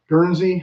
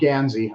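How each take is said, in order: First: The first syllable sounds like 'gurn'. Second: The first syllable sounds like 'gan'. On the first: The speaker calls it wrong. "I said it wrong" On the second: The speaker calls it right.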